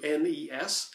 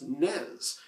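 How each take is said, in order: First: It is spelled out as three separate letters. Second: It is said as a single short word. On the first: "some people shorten that to N E S, like myself" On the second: "some people even abbreviate that shorter to just N E S"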